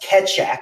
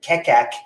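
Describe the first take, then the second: First: The middle consonant is a ch sound. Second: The middle consonant is a k sound. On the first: The speaker calls it right. "correcting me that it's pronounced Ketchak" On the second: The speaker calls it wrong. "I've been pronouncing it Kekak for months and months"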